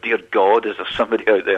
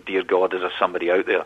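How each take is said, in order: First: It is said as an exasperated exclamation. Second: It is said like a simple child's prayer.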